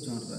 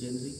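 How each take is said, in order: First: It starts 'zhon' and ends with 'ruh'. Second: It starts 'jen' and ends with 'ree'. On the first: The speaker calls it right. "वो जॉनरा है" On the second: The speaker calls it wrong. "ये जेनरी पढ़ा ही नहीं जाता"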